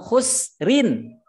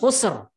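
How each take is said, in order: First: The word ends with a final -in. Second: The word stops on a bare r. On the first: It is a grammar reading that shows the case ending. "Kalau belajar ilmu nahu khusrin" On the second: It is a pausal reading that follows recitation rules. "Belajar tajwid itu diwakafkan ujung khusr"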